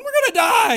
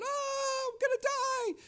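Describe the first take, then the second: First: Very loud, high mock scream of terror; panicked scream. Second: Put-on high-pitched terrified child's scream; panicked scream. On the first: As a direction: shriek like a scared passenger in the back. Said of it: "I'm back there screaming and yelling". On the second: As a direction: imitate a boy screaming in panic on a snowmobile. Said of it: "He is screaming and yelling".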